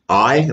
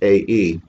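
First: The name sounds like the word 'eye'. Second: The name does not sound like 'eye'. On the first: The speaker calls it wrong. "I know it's easy to say that I" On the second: The speaker calls it right. "I believe the correct pronunciation is AE"

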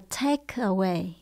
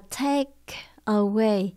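First: The phrase is said quickly. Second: The phrase is said slowly. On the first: "Khi mình đọc nhanh" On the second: "Khi mình đọc chậm"

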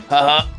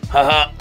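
The two takes are said the same way.

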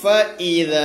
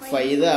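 First: The two vowels are kept apart as separate syllables. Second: The two vowels merge into one gliding syllable. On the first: The speaker calls it right. "ഫ ഈദ തന്നെ വേണം" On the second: The speaker calls it wrong. "ഫൈദ ആവരുത്"

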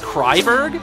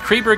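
First: The first syllable sounds like 'cry'. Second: The first syllable sounds like 'cree'. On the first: This is the pronunciation others say is correct. "I've been told it's apparently pronounced Kreiberg" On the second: This is the pronunciation used in the game. "they literally pronounce it as Kreeberg in the game"

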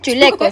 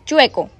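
First: The word has an extra l sound inside. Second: The word has no l sound inside. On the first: The speaker calls it wrong. "No se dice chuleco" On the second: The speaker calls it right. "se dice chueco"

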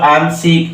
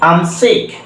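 First: 'I am' is said as two full words. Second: 'I am' is shortened into one syllable. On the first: "আই অ্যাম উচ্চারণ না করে" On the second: "spoken ইংলিশে সাধারণত আই অ্যাম উচ্চারণ না করে আম উচ্চারণ করে"

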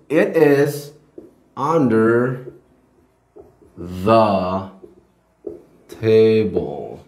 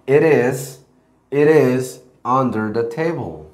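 First: The t in 'it' is a clear t. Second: The t in 'it' is a soft flap.

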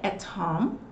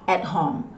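First: The T at the end of 'at' is clearly pronounced. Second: The T at the end of 'at' is dropped. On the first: "se eu for falar o T" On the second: "muitas vezes ele, ó, é cortado"

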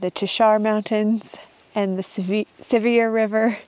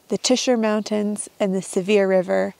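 First: The names have an outsider's pronunciation. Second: The names have the local pronunciation. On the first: This is how the speaker instinctively says them. The speaker calls it wrong. "I always want to call them" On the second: This is how local people say them. The speaker calls it right. "but they say"

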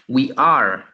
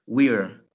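First: It is said as two full words. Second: It is said as one contracted word. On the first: "¿Se acuerdan de esto que era?" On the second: "Y en este caso es we're"

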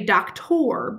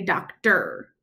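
First: The ending is said as a full 'or' sound. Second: The ending is said as a weak 'er' sound. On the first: The speaker calls it wrong. "If it made the sounds that it's supposed to, it would say doctor" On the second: The speaker calls it right. "we say doctor. Got that er sound at the end"

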